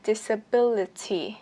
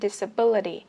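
First: The middle consonant is a crisp T sound. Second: The middle consonant is a soft D sound. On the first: It sounds precise but somewhat mechanical. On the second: It sounds smooth and light, as Americans say it.

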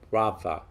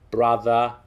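First: The middle sound is a V. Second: The middle sound is a voiced TH. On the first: "it's pronounced like a V sound" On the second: "a voiced TH"

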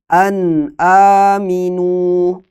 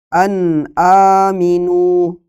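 Both takes have the same delivery.

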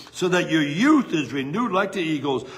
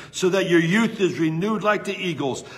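Both takes have the same delivery.

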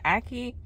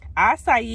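First: The middle consonant is a k sound. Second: The middle consonant is an s sound. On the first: The speaker calls it wrong. "I've been saying it wrong" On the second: The speaker calls it right. "But it's acai bowl"

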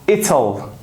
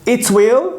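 First: Will is shortened and joined to the pronoun. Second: Will is said as a separate full word.

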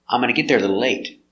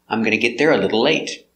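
First: It is reduced to amana, with no g sound. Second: It is reduced to gonna, with the g sound. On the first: "sometimes you'll hear amana, where the G is silent" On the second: "I'm gonna is very common"

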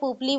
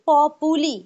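First: It sounds like 'pup-lee', with two syllables. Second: It sounds like 'pop-oo-lee', with three syllables. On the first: This is how the speaker used to say it. The speaker calls it wrong. "যেমন আমি আগে পুপলি বলতাম" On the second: This is how the speaker says it now. The speaker calls it right. "কিন্তু আমি এখন বলছি পপুলি"

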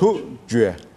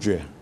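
First: The word is said slowly and carefully. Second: The word is said at normal speed.

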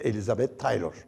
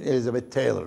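First: The name is pronounced the Turkish way. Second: The name is pronounced the English way.

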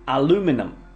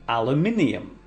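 First: It is said with an American pronunciation. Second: It is said with a British pronunciation.

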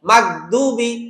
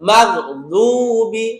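First: The d is a plain, light dental sound. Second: The d is a heavy sound from the tongue's side. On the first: The speaker calls it wrong. "এটা কি বলা যাবে না গায়রিল মাগদুবি" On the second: The speaker calls it right. "বলতে হবে মাগদুবি গু গু গু, জিহ্বার পাশ থেকে"

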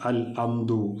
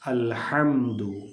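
First: Hamdu starts with a glottal stop instead of h. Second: Hamdu starts with a strong throaty h sound. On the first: The speaker calls it wrong. "ഹംസയോ ... ഒന്നുമായി പോവാതെ" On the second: The speaker calls it right. "ആ ഹ എന്നുള്ള ഉച്ചാരണം കൃത്യമായിരിക്കണം"

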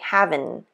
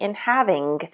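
First: The word ends with a dropped -in sound. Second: The word ends with a full -ing sound.

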